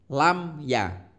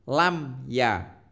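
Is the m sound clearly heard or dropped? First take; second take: clear; clear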